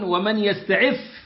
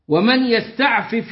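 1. يندمج الفاءان في صوت واحد مشدد. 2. تُنطق الفاءان منفصلتين. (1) "بدون فك الإدغام فتكون ومن يستعف" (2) "يستعفف هنا بفك الإدغام"

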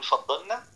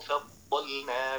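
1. حرف اللام مدغم في النون اللي بعدها. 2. حرف اللام واضح، من غير إدغام ولا قلقلة. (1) "إنك تدغمها في النون تقول فضلنا" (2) "من غير ما يعمل سكت، ومن غير ما يقلقل، ومن غير ما يدغم"

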